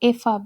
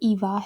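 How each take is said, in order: First: The name has an f sound, German style. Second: The name has a v sound, English style. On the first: "German में ईवा को एफ़ा बोलेंगे" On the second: "जब हम इंग्लिश में करेंगे तो ये ईवा है"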